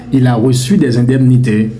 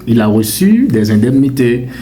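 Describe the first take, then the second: No difference in how they are said.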